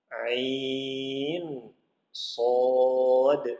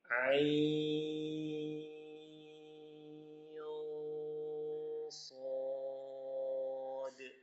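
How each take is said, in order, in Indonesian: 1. Bunyi n diucapkan penuh dan jelas. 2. Bunyi n dilemahkan dan disamarkan secara sengau. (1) "boleh kita baca menjelaskannya" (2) "kita samarkan nun sukunnya"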